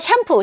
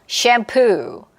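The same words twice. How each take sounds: First: The syllables are said evenly without clear stress. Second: The stress is on the second syllable. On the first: The speaker calls it wrong. "샴푸 해야 되는데" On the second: The speaker calls it right. "강세가 뒤에 있어요. 그래서 the-da"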